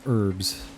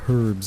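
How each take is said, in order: First: The word begins without any H sound. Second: The word begins with an audible H sound. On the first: The speaker calls it right. "you're not supposed to pronounce the H" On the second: The speaker calls it wrong. "it's not herbs"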